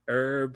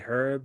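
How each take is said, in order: First: It is said with a silent h, American-style. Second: It is said with an audible h, British-style.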